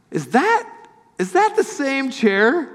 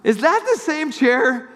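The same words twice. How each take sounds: First: High, slow disbelieving question; surprised question. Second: High, amazed question; surprised. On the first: Friend spotting his old chair, high and astonished. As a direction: ask it as if you can't believe your eyes. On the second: John recognizing the chair, high and amazed. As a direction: repeat the astonished question. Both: Retold or imitated. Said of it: "And it looks something like this".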